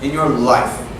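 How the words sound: The pitch drops at the end like a statement. It sounds like a statement, so the listener answers better. The speaker calls it right. "I'm saying it like a statement"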